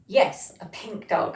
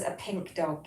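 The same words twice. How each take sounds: First: "dog" louder and drawn out, slow and pleased; emphatic confirmation. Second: Said in the usual way. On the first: Real, not acted. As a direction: lean hard on "dog", slowly and warmly. Delighted confirming the chat comment.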